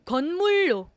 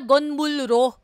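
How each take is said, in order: First: The ending starts with a double L sound. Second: The ending starts with an L then R sound. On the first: The speaker calls it right. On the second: The speaker calls it wrong.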